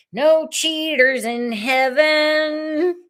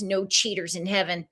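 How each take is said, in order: First: High, slow, stretched-out delivery; drawn-out mock proclamation. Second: Said in the usual way. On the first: Host hammering home the small print, high mock proclamation. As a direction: stretch it out high and sing-song. Mock announcing repeat of phrase.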